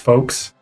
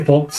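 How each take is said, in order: First: The L sound in the word is silent. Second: The L sound in the word is pronounced. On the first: "that's like F O K E S" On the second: "I need to pronounce the L"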